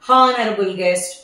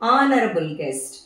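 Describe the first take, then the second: First: Honourable begins with an h sound. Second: Honourable begins with a vowel sound. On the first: The speaker calls it wrong. "హానరబుల్ guest అలా అనకూడదు" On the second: The speaker calls it right. "ఎందుకంటే అక్కడ H silent"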